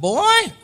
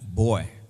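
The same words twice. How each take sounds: First: The word is said more loudly. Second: The word is said fairly softly.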